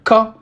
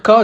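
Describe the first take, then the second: First: "ka" with a doubled, pressed k; shadda intensification. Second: Said in the usual way. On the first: Shown as a demonstration. Teacher showing students the shadda, pressed, doubled k in "ka". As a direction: hold the k closure of "ka" briefly, then release. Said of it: "J'appuie sur la lettre". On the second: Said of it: "Au lieu de dire ka".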